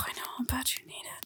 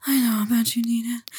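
First: Fast, hushed whisper; hushed quick whisper. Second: Louder, insistent whisper. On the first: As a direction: rush it under your breath. Repeated line, quick hushed take. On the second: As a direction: push the whisper with more force. Repeated line, louder insistent take. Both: Acted.

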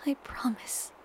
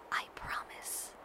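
First: Softer whisper, falling at the end. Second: Very soft, slow whisper. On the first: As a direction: whisper it a bit fuller. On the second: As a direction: breathe it into his neck. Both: A narrator's reading. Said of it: "I whisper into the crook".

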